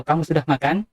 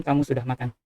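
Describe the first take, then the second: First: Kamu sudah makan asked with the pitch climbing at the end; rising question tune. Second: Just state it, letting the voice drop; falling statement tune. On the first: Teacher contrasting a question with a statement tune. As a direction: ask it, voice going up. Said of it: "berarti bertanya". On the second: Teacher showing the falling tune of a plain statement. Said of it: "nadanya sedikit menurun di bagian akhir". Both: Shown as a demonstration.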